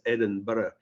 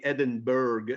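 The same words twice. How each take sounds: First: "Edinburgh" said the Scottish way, ending in burra. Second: "Edinburgh" said the American way, burg ending; Americanised Edinburgh. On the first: Scotsman correcting the host: "Edinburgh" with a burra ending. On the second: To the host, easing the American listener: "Edinburgh" with a burg ending. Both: Shown as a demonstration. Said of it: "If I say Edinburgh".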